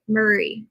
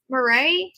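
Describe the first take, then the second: First: Murray said MUR-ee, falling; Murray ending in a falling ee; settled pronunciation. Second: Murray said as rising muh-RAY; Murray ending in a questioning, stressed RAY; questioning a pronunciation. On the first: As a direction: say Murray as MUR-ee, stress up front. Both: Shown as a demonstration. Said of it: "How did I say it the first time".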